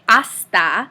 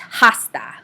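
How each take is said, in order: First: The word begins with no H sound. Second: The word begins with an audible H sound. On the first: The speaker calls it right. "we say hasta" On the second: The speaker calls it wrong. "and not hasta"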